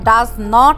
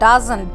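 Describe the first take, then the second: First: It is said as two separate full words. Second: It is said as one contracted word. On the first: The speaker calls it wrong. "আমরা ডাজ নট এইভাবে বলবো না" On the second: The speaker calls it right. "আমরা উচ্চারণ করবো ডাজন্ট"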